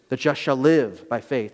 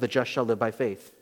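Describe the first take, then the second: First: The stress is on "live". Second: The stress is on "just".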